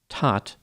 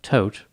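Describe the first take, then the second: First: The vowel sounds like the one in hot. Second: The vowel sounds like the one in note. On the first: This is the usual pronunciation of the name. "Normally, it would be pronounced Tot" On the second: This is how the bearer says his own name. "Anthony pronounces it like Tote"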